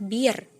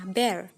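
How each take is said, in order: First: The vowel sounds like the one in beer. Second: The vowel sounds like the one in bare. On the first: The speaker calls it wrong. "saya sering mendengarnya dengan istilah bir" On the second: The speaker calls it right. "seperti ketika teman-teman mengucapkan kata ember"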